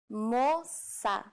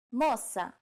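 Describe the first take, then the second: First: "Moça" drawn out in two syllables; slow demonstration. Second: Said in the usual way. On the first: Shown as a demonstration. Teacher showing learners the word for girl, slowly. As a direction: stretch each syllable of "Moça".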